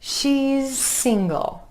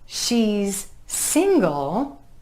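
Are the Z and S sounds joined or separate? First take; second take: joined; separate. First: The Z and S sounds run together smoothly. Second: The Z and S sounds are said separately.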